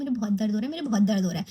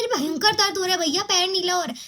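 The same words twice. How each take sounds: First: Low, mild moaning complaint of pain; a low, half-hearted whimper about the hurt foot; complaining of pain. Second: Higher, louder desperate plea about the pain; pleading about pain. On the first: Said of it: "मैं बोल रही हूँ". (धीमी आवाज़ में दर्द की शिकायत) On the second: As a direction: insist loudly to the doubting friends that it really hurts. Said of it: "मैं सीख रही हूँ". (ऊँची, ज़ोरदार आवाज़ में दर्द की गुहार) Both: Retold or imitated.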